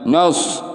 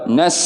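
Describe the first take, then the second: First: The vowel is a rounded 'o' sound. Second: The vowel is an open 'a' sound. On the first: The speaker calls it wrong. "jangan nos" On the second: The speaker calls it right. "harus nas"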